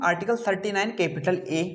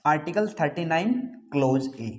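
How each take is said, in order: First: article thirty nine capital ए, letter read as capital A. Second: article thirty nine clause ए, ए read as clause a. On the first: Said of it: "के रूप में इसका उच्चारण करेंगे". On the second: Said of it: "जबकि इसका उच्चारण". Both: Shown as a demonstration.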